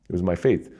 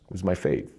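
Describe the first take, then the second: First: "faith" given the weight, "my" left light; stress on faith. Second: "my" lifted, "faith" dropped softer; stress on my. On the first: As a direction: land on "faith" in "It was my faith". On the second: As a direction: lean on "my" in "it was my faith". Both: Real, not acted.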